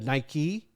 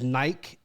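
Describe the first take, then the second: First: The name is said the way Americans say it. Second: The name is said the way Europeans say it. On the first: The speaker calls it right. "it was named here in the United States, so it's pronounced Nike" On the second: The speaker calls it wrong. "I really heard it a lot in uh, uh, Europe, was Nike"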